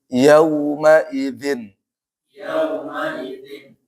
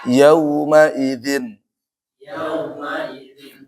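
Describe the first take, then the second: No difference in how they are said.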